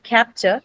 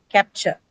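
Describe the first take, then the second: First: Capture stressed on its first syllable; wrong stress. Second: Capture stressed on its second syllable. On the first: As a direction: say capture as CAP-ture. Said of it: "it's not capture". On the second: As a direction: say capture as cap-TURE. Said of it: "carry the stress on the second syllable". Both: Shown as a demonstration.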